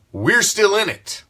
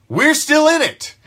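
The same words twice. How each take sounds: First: Said in the usual way. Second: Higher, insistent; fired-up fan insisting on the playoff chase; rallying cry. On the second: Real, not acted. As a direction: lift it up as a call to hope. Repeated rallying line.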